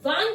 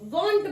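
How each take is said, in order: First: The vowel is an open, unrounded 'ah'. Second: The vowel is a rounded 'aw'. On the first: The speaker calls it wrong. "हम वांट नहीं बोलते हैं" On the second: The speaker calls it right. "वॉन्ट बोलते हैं"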